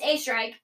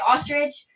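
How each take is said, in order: First: The name begins with a weak 'a' sound. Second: The name ends with an 'itch' sound. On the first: The speaker calls it right. "But it's A Strike" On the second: The speaker calls it wrong. "everybody would say my last name wrong"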